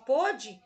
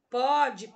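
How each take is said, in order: First: "pôde" with a closed ô; past-tense "pôde", tight ô, firmly stressed; closed vowel. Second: "pode" with an open ó, as póde; present-tense "pode", open ó stretched; open vowel. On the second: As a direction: say "pode" slowly with a wide-open first vowel. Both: Shown as a demonstration. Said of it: "serve para distinguir a pronúncia".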